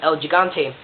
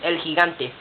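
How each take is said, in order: First: It is said with an English accent. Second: It is said with a Spanish accent.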